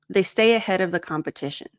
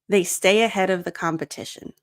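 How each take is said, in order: The two takes are said the same way.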